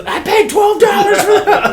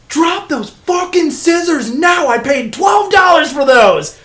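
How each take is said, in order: First: High, loud mock yell through laughter; laughing as he retells Rob's outburst. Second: High, loud and slow barked order; angry shout. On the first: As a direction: crack up while quoting it. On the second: Retold or imitated. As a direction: yell it like an outraged owner. Rob yells at kid with scissors.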